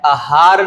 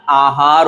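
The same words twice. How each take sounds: First: आहार said as "a-haar"; short first vowel. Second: आहार said slowly as "aa-haar"; long first vowel. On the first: Teacher recapping the mistake, आहार with short a. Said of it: "आहार नहीं". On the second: Teacher recapping, आहार with long first aa. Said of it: "आहार होता है". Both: Shown as a demonstration.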